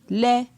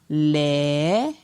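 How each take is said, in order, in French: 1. La syllabe se dit sur un ton moyen. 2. La syllabe se dit sur un ton montant. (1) "Ton moyen" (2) "Ton montant"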